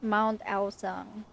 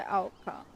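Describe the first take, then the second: First: "Mount Aocang" said slowly, name sounded out; corrected pronunciation. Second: "Aocang" as first misread by the speaker; mistaken pronunciation. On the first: Viewer trying out the game's pronunciation, slow and careful. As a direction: say "Aocang" carefully, as just heard. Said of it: "I thought it was". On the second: Viewer quoting own earlier misreading, mistaken pronunciation. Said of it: "not Aocang". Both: Shown as a demonstration.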